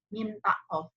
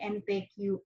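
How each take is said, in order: First: The letters are named with Arabic letter names. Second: Indonesian letter names, with an English final letter. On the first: The speaker calls it right. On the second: The speaker calls it wrong. "M dan T-nya Indonesia, Q-nya Inggris"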